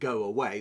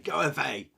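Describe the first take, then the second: First: Away is said with a w sound. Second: Away is said with a v sound. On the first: "instead of saying go away" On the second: "they'll say go away. So they, they mix up their V's and W's"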